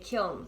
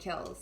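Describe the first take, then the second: First: The word ends with an audible n sound. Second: The word ends without any n sound. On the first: "That's what you call a kiln" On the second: "We just call them kills, so you don't necessarily pronounce the N, it's silent"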